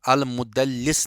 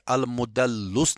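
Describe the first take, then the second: First: The vowel after the doubled l is i. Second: The vowel after the doubled l is u. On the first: "अल मुदल्लिस नहीं पढ़ेंगे" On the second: "अल मुदल्लुस नहीं पढ़ेंगे"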